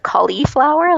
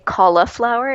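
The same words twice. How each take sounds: First: The word is said with the 'ee' vowel. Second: The word is said without the 'ee' vowel.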